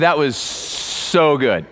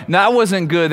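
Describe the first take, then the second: First: "so" drawn out slow and savored; slow right down on "that was so good"; stress on so. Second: Said in the usual way. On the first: Shown as a demonstration. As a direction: linger on "so" like tasting something great. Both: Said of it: "have you ever had somebody go".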